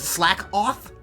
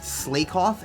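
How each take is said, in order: First: The first vowel is short, like 'slack'. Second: The first vowel is long, like 'slake'. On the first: The speaker calls it right. "So that's why it's slack off? Because he slacks off?" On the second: The speaker calls it wrong. "the amount of times I've heard them pronounced Slakoff"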